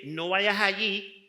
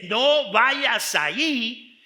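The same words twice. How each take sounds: First: Said in the usual way. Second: Slow, loud, stretched-out warning on "No vayas allí"; a wife's stern no-means-no warning. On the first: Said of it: "ya entendemos de que no tenemos que ir ahí". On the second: Shown as a demonstration. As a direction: lean hard on "No" and drag the whole phrase like a firm command. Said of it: "tenemos que irnos en otra dirección".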